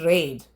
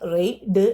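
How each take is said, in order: First: The vowel glides smoothly as one sound. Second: The vowel is split into separate parts. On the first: The speaker calls it right. "It is റെയ്ഡ്. / റെയ്ഡ് ഒരുമിച്ചാണ്" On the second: The speaker calls it wrong. "റെയ്ഡ് എന്ന് പറയരുത്"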